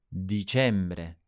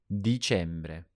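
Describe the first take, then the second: The two takes are said the same way.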